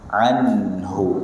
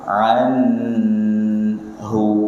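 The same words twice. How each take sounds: First: The n sound is short and clear. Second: The n sound is held before the h. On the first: The speaker calls it right. "Nunnya dibaca jelas" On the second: The speaker calls it wrong. "Jangan ditahan. ... Tidak"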